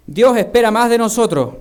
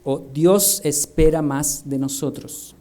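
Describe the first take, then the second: First: Dios with a lifted, stronger first take; first take, higher and louder; one way to say it. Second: Dios said lower and slower, careful; o Dios espera más de nosotros, drawn out low; second take, lower and slower; the other way to say it. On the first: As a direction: Dios espera más de nosotros said higher and louder. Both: Shown as a demonstration. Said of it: "Hay diferenciación".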